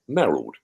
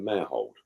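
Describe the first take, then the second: First: The name is said the old local way. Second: The name is said the current, standard way.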